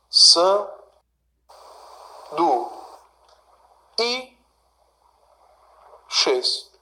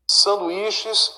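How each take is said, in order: First: "San, du, i, xês" with long pauses between syllables. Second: Said in the usual way. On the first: Shown as a demonstration. Teacher dividing the word for students, "San, du, i, xês" syllable by syllable. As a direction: break "San, du, i, xês" into four separate beats. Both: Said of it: "Vamos fazer a divisão aqui".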